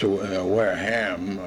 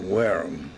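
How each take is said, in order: First: The final 'ham' is fully sounded. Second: The final 'ham' is reduced and weak. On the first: This follows the spelling. "That's Wareham, it's spelled" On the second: This is how locals say it. "but they call it Wareham"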